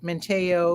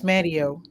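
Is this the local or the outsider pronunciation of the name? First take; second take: outsider; local. First: It is said the way outsiders say it. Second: It is said the way locals say it. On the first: The speaker is not from the area. The speaker calls it wrong. "you can tell who's not native to North Carolina because they'll say" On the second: The speaker is from the area. The speaker calls it right. "when it's Manteo"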